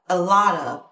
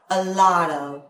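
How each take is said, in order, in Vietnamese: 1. Các từ nối liền nhau, t mềm kiểu flap. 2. Các từ nối liền nhau, t mềm kiểu flap.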